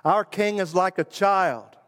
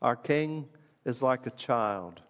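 First: Raised, ringing declaration like a crowd chant; proclaimed aloud. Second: Hushed, slowed reflection; softer, slow, wondering tone. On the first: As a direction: announce it as the people's song. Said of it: "has his whole constituency sing it". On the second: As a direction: let it sink in quietly. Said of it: "he'll have everybody sing it". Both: Shown as a demonstration.

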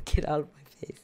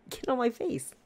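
First: "get out of my face" whispered, embarrassed; whispered correction. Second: "Get on my face" blurted high in a mock retort; slip of the tongue. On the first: Real, not acted. Correcting the slip for her co-host, whispered. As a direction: hush "get out of my face" as a quick fix. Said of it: "No, get out of my face". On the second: Telling off the old lady in her head, high mock retort. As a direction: fling "Get on my face" out in a high mocking snap. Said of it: "in my head, I'm like".

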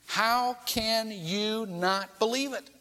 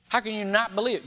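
First: "How can you not believe it?" drawn out slowly, each word weighed; slow down and lean on every word; slow, pressing repeat. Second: "How can you not believe it?" asked at normal speed; plain rhetorical question. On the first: Preacher repeating Jesus' challenge to skeptics, slow and emphatic. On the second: Preacher putting Jesus' question to the crowd, plain. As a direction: ask it straight, at ordinary pace. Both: Shown as a demonstration. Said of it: "You're seeing the evidence".

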